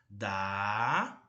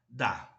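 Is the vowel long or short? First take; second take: long; short. First: The vowel is held long. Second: The vowel is cut short.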